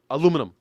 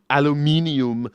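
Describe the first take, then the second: First: The word lacks the extra syllable before the end. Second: The word has an extra syllable before the end. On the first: "we just call it aluminum. It's more fun to say. It's it's faster" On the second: "that extra extra syllable in there"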